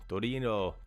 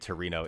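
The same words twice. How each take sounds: First: It is tried with an Italian-style accent. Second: It is said with an American accent.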